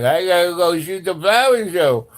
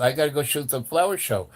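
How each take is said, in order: First: Loud, higher, distorted put-on voice; tripping stoner. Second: Said in the usual way. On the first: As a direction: imitate someone high insisting they have a job. Mimics own tripping self repeating it.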